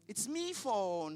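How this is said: It is said with an Irish accent. "si je vous parle en irlandais"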